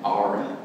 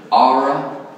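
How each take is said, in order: First: "Aura" repeated as a light East Texas accent demo. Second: "Aura" for the letter R in an East Texas accent, louder. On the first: Shown as a demonstration. Teacher joking about his own East Texas accent. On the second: Real, not acted. Teacher spelling out his link in an East Texas accent. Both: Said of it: "That's my East Texas accent".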